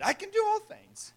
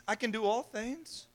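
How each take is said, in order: First: High, chirpy mock quote of the verse; mock half-quote. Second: Said in the usual way. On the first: Shown as a demonstration. Preacher mocking people who half-quote Paul, high and chirpy. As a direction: toss off the half verse as a joke. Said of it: "Just quote a little bit of it". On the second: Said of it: "Don't finish the verse".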